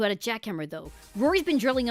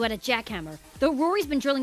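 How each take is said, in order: First: The word 'though' closes the first sentence. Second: The word 'though' runs into the next sentence. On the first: The speaker calls it right. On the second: The speaker calls it wrong.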